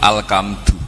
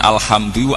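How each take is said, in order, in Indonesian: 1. Konsonan setelah 'al' adalah bunyi k. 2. Konsonan setelah 'al' adalah bunyi h.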